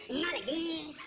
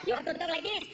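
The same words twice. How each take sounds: First: Mock Mexican accent; exaggerated Mexican accent as a counterexample. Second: Mock Puerto Rican accent, correcting; exaggerated Puerto Rican-accented instruction. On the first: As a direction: show the wrong, Mexican-accented way. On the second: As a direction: show how a Puerto Rican talks. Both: Shown as a demonstration. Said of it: "Puerto Rican with a Mexican accent".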